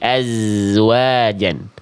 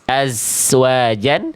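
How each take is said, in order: First: The middle consonant sounds like a buzzing z. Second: The middle consonant sounds like a hissing s. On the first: The speaker calls it right. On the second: The speaker calls it wrong. "ini berubah menjadi sin. Jangan dibaca"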